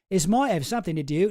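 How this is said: It is said in a Cockney-like accent.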